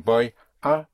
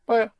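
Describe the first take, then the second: First: The two words are said separately with a break. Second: The two words run together as one word. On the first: The speaker calls it wrong. "You don't say boy, ah" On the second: The speaker calls it right. "but boya"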